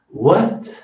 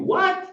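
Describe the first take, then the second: First: It is said softly and gently. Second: It is said curtly and harshly. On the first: The speaker politely asks for a repeat. The speaker calls it right. "but say it nicely. Bem gentil" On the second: The listener may think the speaker is angry. The speaker calls it wrong. "Don't say this"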